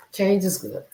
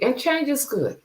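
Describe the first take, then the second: First: Said in the usual way. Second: "change" lifted high and leaned on; stress on change. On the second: Real, not acted. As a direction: push "change" up to drive the point home.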